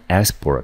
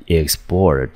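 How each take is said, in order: First: Export as EX-port, first syllable stressed. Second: Export as ex-PORT, second syllable stressed. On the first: Teacher shows the noun export, stress on EX. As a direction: hit the EX in export. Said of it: "放在第一音节念成export". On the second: Teacher reminds students of the verb export, stress on PORT. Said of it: "那当作动词念成输出的时候". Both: Shown as a demonstration.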